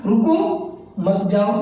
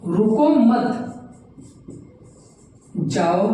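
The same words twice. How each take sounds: First: रुको, then a short break before मत जाओ; pause after रुको. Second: रुको मत run together, long break, then जाओ; pause after मत. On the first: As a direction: stop after रुको, keep मत जाओ together. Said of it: "हल्का सा अब विराम लगाया". (रुको के बाद विराम) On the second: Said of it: "देखिए, मैंने दोनों लिखा है". (मत के बाद लंबा विराम) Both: Shown as a demonstration.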